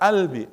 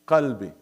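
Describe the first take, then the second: First: The word starts with a glottal stop. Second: The word starts with a deep q sound.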